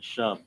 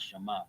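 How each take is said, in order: First: It is said as one short syllable. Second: It is said as two syllables. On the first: The speaker calls it right. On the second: The speaker calls it wrong. "not Shema"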